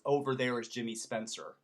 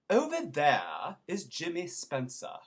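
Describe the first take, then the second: First: American accent with the R sounds pronounced. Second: British accent with the R sounds dropped. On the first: The speaker calls it wrong. "would be Americanized" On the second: The speaker calls it right. "remember we leave off the R's"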